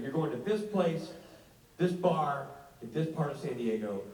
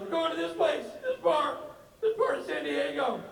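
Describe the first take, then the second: First: Said in the usual way. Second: High, whiny repeat of the address; whiny Rob. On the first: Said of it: "[name] reads address". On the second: Retold or imitated. Friend reading the address back, high and whiny. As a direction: parrot the address in a high whine.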